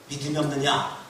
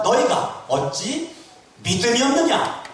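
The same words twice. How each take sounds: First: Said in the usual way. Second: Loud, high-pitched scolding question; Jesus rebuking. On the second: Acted. Jesus to disciples lacking faith, loudly rebuking. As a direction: raise the voice into a sharp reproach. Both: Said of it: "예수님이 책망하는 거예요".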